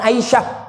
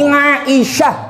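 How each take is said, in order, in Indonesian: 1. Diawali dengan vokal terbuka biasa. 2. Diawali dengan bunyi 'ain tenggorokan yang tegang. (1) "jangan Aisyah" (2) "Jadi Aisyah"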